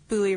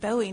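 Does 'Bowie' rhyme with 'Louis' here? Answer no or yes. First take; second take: Yes; No. First: The name rhymes with Louis. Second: The name does not rhyme with Louis. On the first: This is how the family pronounced it. "Bowie rhyming with Louis" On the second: This is the common pronunciation. "before this, I always said Bowie knife"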